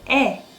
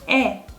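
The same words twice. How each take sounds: Both takes have the same delivery.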